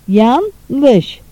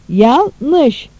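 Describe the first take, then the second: The two takes are said the same way.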